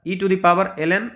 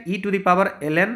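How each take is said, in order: Both takes have the same delivery.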